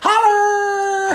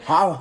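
First: The word is said with big, loud energy. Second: The word is said at a modest volume. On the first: The speaker calls it right. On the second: The speaker calls it wrong.

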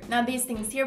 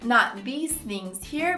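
First: The sentence is said somewhat quickly. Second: The sentence is said at a moderate pace. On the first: "A little bit faster" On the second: "The whole sentence"

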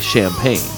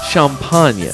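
First: It is said with an English pronunciation. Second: It is said with a French pronunciation. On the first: "so we, non-French, are happy to say champagne" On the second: "French folks, though, pronounce it champagne"

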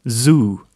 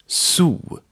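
First: The word starts with a buzzing voiced z. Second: The word starts with a hissing unvoiced s. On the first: The speaker calls it wrong. "Not zoo" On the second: The speaker calls it right. "but zoo"

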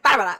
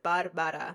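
First: It is said fast and aggressive. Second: It is said at normal, calm pace.

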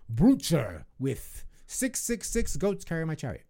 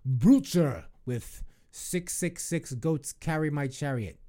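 First: It is said in a dramatic, theatrical way. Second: It is said in a plain, ordinary way.

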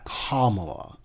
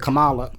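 First: The name sounds like 'calm' plus 'Allah'. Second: The name is said in a loose, easy way. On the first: The speaker calls it right. "It's like calm. Allah" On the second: The speaker calls it wrong. "it's easy and it's lazy"

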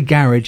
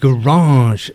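First: It is said with a British accent. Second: It is said with an American accent.

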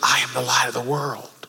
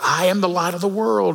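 First: It is whispered softly. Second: It is said a little louder.

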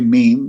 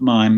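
First: The vowel sounds like 'ee', as in French. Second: The vowel sounds like 'eye', as in English. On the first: This is how the performer himself said the word. "he would say meme" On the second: This is the usual English way of saying the word. "not mime"

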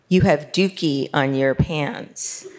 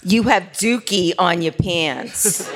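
First: It is said in a plain voice. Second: It is said in a strong dialect accent.

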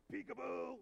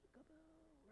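First: It is said in a deep, low voice. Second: It is said in a raised, higher voice.

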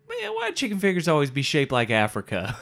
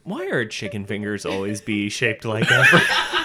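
First: It is said in a put-on voice. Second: It is said in a plain white voice.

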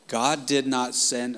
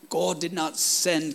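First: It is said in the speaker's usual American accent. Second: It is said in a put-on British accent.

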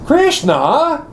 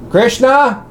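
First: The name is called out in an indignant tone. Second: The name is called out in a scolding tone. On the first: The caller is outraged at being tricked. "what did the gopis say when they were going to get out of the water and they saw that Krishna had stolen their saris?" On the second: The caller is fed up with repeated misbehavior. "what did Mother Yashoda say when Krishna had stolen the butter again?"

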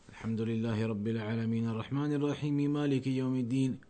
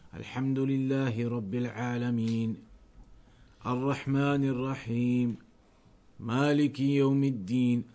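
First: It is recited in one breath, without pauses. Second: It pauses after each verse.

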